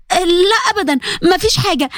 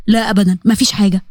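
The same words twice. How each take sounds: First: Higher, hurried cover-up; quickly paper over it, pitched up; Nour covering up. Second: Fares deflecting. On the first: Nour covers for Huda in front of Zein, higher voice. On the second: Fares hides his hurt from Sara, lower voice. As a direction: lower male voice, brushing it off. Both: Acted.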